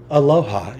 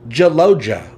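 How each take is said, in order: First: The J at the start is soft. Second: The J at the start is hard.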